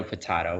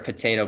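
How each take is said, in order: First: Potato said po-TAH-to, lower and softer; alternative pronunciation. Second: Potato said po-TAY-to; everyday pronunciation. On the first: Presenter finishing the saying about two pronunciations, potato as po-TAH-to. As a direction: say potato with an "ah" in the middle. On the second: Presenter likening two name pronunciations to a saying, potato as po-TAY-to. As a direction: say potato with a long "ay" in the middle. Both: Shown as a demonstration. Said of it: "it's sort of potato, potato".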